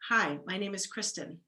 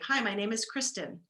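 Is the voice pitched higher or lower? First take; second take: lower; higher. First: The voice is lower and relaxed, after a breath in. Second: The voice is higher and tenser, without a breath first. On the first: "or if I take a breath in" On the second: "So if I say"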